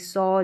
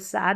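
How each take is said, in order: First: The vowel is a rounded 'aw' sound. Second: The vowel is an open 'ah' sound. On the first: The speaker calls it right. "ए डब्ल्यू को हम अ pronounce कर रहे हैं" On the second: The speaker calls it wrong. "इसको सा नहीं पढ़ेंगे"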